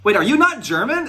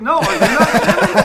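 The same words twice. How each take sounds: First: Very high, louder double-take; astonished question. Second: High, loud question through laughter; laughing astonishment. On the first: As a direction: ask it in rising disbelief. Retold astonished discovery, his own question. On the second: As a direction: throw it back loudly, cracking up. Retold astonished counter-question, breaking into laughter. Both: Retold or imitated.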